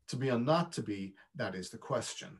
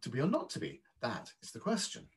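First: American accent, stressed words hit with extra volume. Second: British accent, stressed words marked mostly by pitch.

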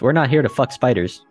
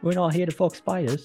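First: It is said in the speaker's plain accent. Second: It is said in an Australian accent.

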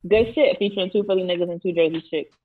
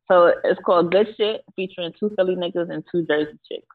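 First: It is said fast. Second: It is said slowly.

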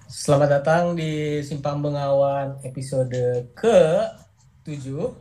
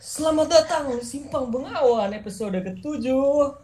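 First: It is said with low, flat energy. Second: It is said with high, lively energy.

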